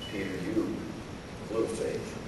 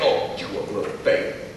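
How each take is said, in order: First: It is said in a gentle, caring tone. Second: It is said in a scolding, reprimanding tone.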